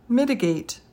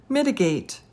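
The two takes are said the same way.

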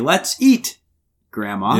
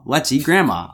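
First: There is a pause before grandma. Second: It runs on without a pause before grandma.

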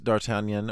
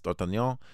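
First: The name is said in an English accent. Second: The name is said in a French accent.

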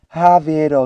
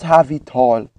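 First: The T is softened into a D sound. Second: The T is pronounced as a crisp T. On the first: The speaker calls it right. "A touch of that our silent D, that softened T" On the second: The speaker calls it wrong.

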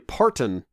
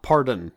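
First: The middle consonant is a clear t sound. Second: The middle consonant is a d sound. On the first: The speaker calls it right. "you know it's Dolly Parton" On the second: The speaker calls it wrong. "not Pardon"

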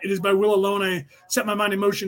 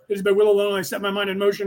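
First: It is said slowly. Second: It is said fast.

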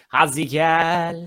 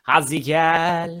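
First: The middle consonant is pressed into a z sound. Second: The middle consonant is pressed into a z sound.

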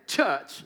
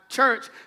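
First: The R is dropped and the vowel drawn out. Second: The R is clearly pronounced after the vowel.

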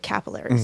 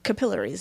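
First: It is said with an American accent. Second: It is said with an Australian accent.

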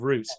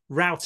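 First: The word is said with a British pronunciation. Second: The word is said with an American pronunciation. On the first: "instead of" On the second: "you suddenly start talking about"

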